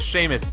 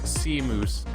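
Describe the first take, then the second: First: The name ends with a short 'us' sound. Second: The name ends with a long 'oose' sound. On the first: The speaker calls it right. "my name is Seamus" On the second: The speaker calls it wrong. "if you mispronounce my name, you get Seamoose"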